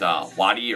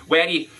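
First: Said in the usual way. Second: Waddy in a strong Scottish accent; broad Scottish accent. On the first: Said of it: "I don't know how you pronounce it". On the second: Shown as a demonstration. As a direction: try a thick Scottish Waddy. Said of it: "you have to say it in a real strong Scottish accent".

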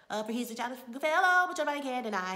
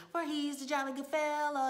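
First: Fast, loud, higher mock singing; sung, race loudly through the song; hurried singing. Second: Higher-pitched retold birthday singing. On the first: Assistants singing for an impatient master, hurried singing. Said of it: "He wants them to hurry up". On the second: Two assistants singing to their master over a cake, singing. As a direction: imitate assistants singing in celebration. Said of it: "and they're singing".

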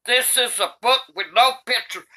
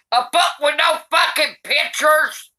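First: Said in the usual way. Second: Outraged shout. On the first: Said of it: "now it's time for me". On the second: Real, not acted. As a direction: bellow it in disgust. Granny outraged at the book.

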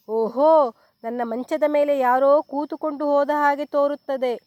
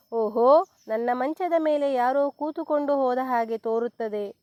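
First: Loud, booming bear roar; papa bear roaring at his chair. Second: Mild roar. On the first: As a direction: roar it like a big angry bear. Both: A narrator's reading. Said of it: "ಎಂದು ಗರ್ಜಿಸಿತು".

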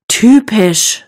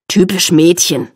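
First: Exasperated sigh on "Typisch". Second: Mildly grumbling jibe on "Typisch Mädchen"; scolding. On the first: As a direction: sigh out "Typisch", drawn out and fed up. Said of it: "seufzt Anna". (genervt seufzend) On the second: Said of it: "schimpft er". (leicht schimpfend) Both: A narrator's reading.

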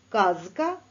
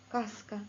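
First: Казка with a clearly voiced з and a rising tune; first word of the voiced-voiceless pair. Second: Каска with a voiceless с and a falling tune; second word of the voiced-voiceless pair. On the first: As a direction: say казка buzzing the з. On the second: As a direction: say каска with a sharp hissed с. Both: Shown as a demonstration. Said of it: "вимовимо попарно звуки".

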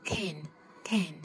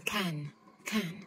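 First: American can with the a leaning toward e, said lightly. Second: British English can with an open round a. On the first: Teacher showing learners the American can. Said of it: "Người Mỹ". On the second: Teacher showing learners the British can. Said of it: "Người Anh thì họ sẽ đọc là". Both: Shown as a demonstration.

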